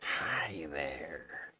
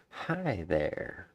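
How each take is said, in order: First: Whispered lizard-folk greeting; whispered Argonian voice. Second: A hint of a haughty high elf greeting; lightly voiced high elf saying hi; barely-there high elf voice. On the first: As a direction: breathe out a sly Argonian hi. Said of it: "That's my Argonian voice". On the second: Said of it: "That's my high elf voice". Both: Shown as a demonstration.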